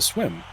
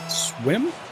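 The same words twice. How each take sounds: First: The pitch falls at the end of the word. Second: The pitch rises at the end of the word.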